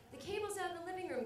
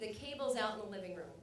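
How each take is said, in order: First: Put-on higher, quicker babysitter voice; lightly voiced babysitter calling the parents; babysitter's polite request. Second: Said in the usual way. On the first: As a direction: ask lightly and fast, pitched up. Voices babysitter asking on the phone.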